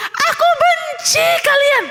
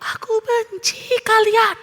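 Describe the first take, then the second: First: Very high-pitched yell; angry shout. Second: Answering echo. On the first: Theo yelling into the valley, angry shout. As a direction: shout it out like an upset child. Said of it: "Karena waktu dia bilang". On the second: Unseen voice answers Theo from the valley, echoing. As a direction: call it back drawn-out, like a distant echo. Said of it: "ada suara yang menyaut". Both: A narrator's reading.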